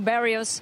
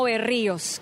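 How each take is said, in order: First: The name is pronounced the American English way. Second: The name is pronounced the Spanish way. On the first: This is how the US media say the name. The speaker calls it wrong. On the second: This is how the name is said in the player's country. The speaker calls it right.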